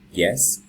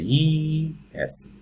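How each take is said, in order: First: The opening y sound is very brief. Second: The opening y sound is drawn out. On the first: The speaker calls it right. "you say yes" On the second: The speaker calls it wrong. "You don't say ye, yes"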